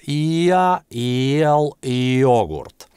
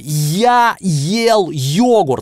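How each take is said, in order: First: It is said softly, calmly and lazily. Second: It is said loudly and clearly. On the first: "мягко, спокойно, лениво, как будто спросонья" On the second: "глухой дед, который вас не слышит"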